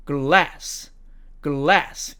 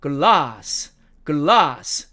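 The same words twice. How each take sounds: First: American "glass", front a; American demo of "glass", short a; American accent. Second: British "glass" with long ah; British demo of "glass", open a; British accent. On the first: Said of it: "미국식 발음으로는". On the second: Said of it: "영국식 발음으로는". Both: Shown as a demonstration.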